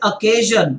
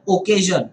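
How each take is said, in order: First: The first vowel sounds like 'uh'. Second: The first vowel sounds like 'oh'. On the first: The speaker calls it right. "It's just like occasion" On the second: The speaker calls it wrong. "rather than occasion"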